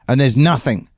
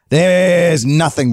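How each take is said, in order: First: Said in the usual way. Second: "There's" stretched out long and pitched higher; drawn-out emphasis. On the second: Real, not acted. Storyteller stressing the empty outback, emphatic stretch on "There's". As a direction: draw out "There's" before landing on "nothing".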